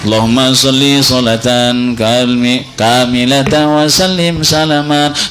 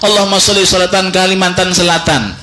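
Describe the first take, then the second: First: The phrase is said slowly with each word clear. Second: The phrase is rushed and the words blur together. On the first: The speaker calls it right. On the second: The speaker calls it wrong.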